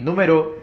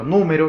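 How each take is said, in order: First: The stress is on the last syllable. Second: The stress is on the first syllable. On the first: It is a verb form. "número es aguda" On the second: It is a noun. "número viene siendo esdrújula"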